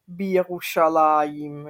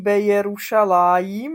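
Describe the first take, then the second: First: It is merged into one word starting with bi. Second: It is said as two words, be and Yerushalayim. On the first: The speaker calls it right. "ale je Bírušalajm" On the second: The speaker calls it wrong. "není be Jerušalajm"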